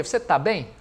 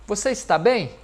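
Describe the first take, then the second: First: "tá" as one short syllable for "está"; casual spoken Portuguese "tá"; colloquial contraction. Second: "está" said in full, both syllables; careful, unreduced "está"; careful full form. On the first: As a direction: reduce "está" to a quick "tá". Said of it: "A gente fala o quê?". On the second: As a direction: pronounce "está" completely, as textbook Portuguese. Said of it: "Quase ninguém fala assim". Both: Shown as a demonstration.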